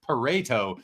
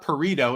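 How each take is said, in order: First: The name is said not rhyming with burrito. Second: The name is said to rhyme with burrito. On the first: The speaker calls it right. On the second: The speaker calls it wrong.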